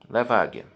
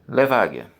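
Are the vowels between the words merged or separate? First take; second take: merged; merged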